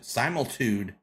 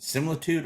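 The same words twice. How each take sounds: First: "Similitude" opening like "sigh-mul", long i; long-i pronunciation. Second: "Similitude" opening with "sim", short i; short-i pronunciation. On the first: Host trying another reading of a title, "Similitude" as "SIGH-mul-tude". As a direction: say "Similitude" with first syllable rhyming with "time". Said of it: "Is it Similitude or Similtu". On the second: Host puzzling over an episode title, "Similitude" with short first i. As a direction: say "Similitude" starting like "simmer". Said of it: "Is it Similitude or". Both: Shown as a demonstration.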